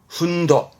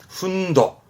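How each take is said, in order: First: The word ends with a 'do' sound. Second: The word ends with a 'do' sound.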